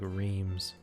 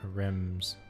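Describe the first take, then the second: First: The vowel is long, like in 'reams'. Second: The vowel is short, like in 'rem'. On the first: The speaker calls it wrong. "Not what I was saying, which was like reams" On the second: The speaker calls it right. "I guess that's how you pronounce that"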